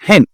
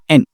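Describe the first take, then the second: First: The starting h sound is pronounced. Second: The starting h sound is dropped. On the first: The speaker calls it right. "ça, c'est hen" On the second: The speaker calls it wrong. "c'est pas N"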